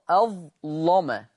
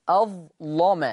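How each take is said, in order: The two takes are said the same way.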